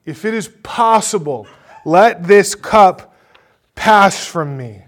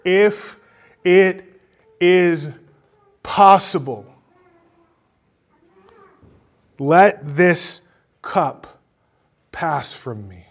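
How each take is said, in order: First: Anguished crying out in prayer. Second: Loud, high plea, each phrase set apart; crying out in prayer. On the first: Jesus pleading with his Father before arrest, crying out loudly. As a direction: cry it out much louder, stretching the words. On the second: Jesus praying to his Father in the garden, crying out. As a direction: cry out haltingly, easing off at the end. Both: Acted. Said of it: "You hear him crying out in prayer".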